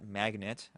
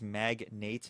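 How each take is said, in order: First: The last syllable sounds like 'net'. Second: The last syllable sounds like 'nate'. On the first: The speaker calls it wrong. "not Magnet" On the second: The speaker calls it right. "I am pronouncing it correctly. That is Magnate"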